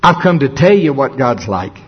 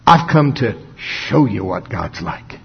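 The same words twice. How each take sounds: First: "tell" stressed as the lesser option; "tell" marked out, the rest running on evenly. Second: Slow, lower line with "show" drawn out; pause, then lean hard on "show"; "show" stretched out as the real point; stress on show. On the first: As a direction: lean on "tell", setting up a contrast. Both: Acted. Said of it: "he's not just saying".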